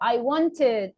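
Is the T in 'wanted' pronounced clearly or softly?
clearly. The T in the middle is strongly pronounced. "they exaggerate the letter T"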